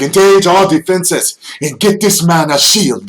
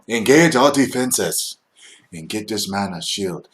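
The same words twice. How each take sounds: First: It is barked forcefully like orders. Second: It is said calmly and evenly.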